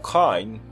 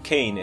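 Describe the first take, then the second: First: The vowel is said with a Cockney accent. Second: The vowel is said with a standard accent. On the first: This is how he himself says his name. The speaker calls it right. "ele fala o Cockney e ele fala que o nome dele na verdade é Michael Caine" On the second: This is how others usually say his name. The speaker calls it wrong. "e não Caine"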